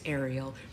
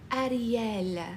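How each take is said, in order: First: The name is said with an American accent. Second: The name is said with an Italian accent. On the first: The speaker calls it right. "That is not how you say Ariel. It's Ariel" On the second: The speaker calls it wrong. "do not put an Italian accent on Ariel's word"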